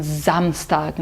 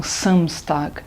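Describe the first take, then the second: First: Samstag begun with a buzzing z; z sound. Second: Samstag with a sharp s, slower; wrong s. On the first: Teacher modelling the correct Samstag. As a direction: say Samstag as Zamstag. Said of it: "a gente fala também". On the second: Teacher showing the wrong Samstag. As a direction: say Samstag with a hissing s. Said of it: "não". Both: Shown as a demonstration.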